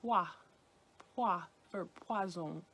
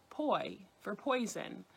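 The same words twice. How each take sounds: First: "poi" said as pwa, French style. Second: Put-on poi said like English boy sound; English-style poi. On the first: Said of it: "it should be pronounced". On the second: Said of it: "first syllable is pronounced poi". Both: Shown as a demonstration.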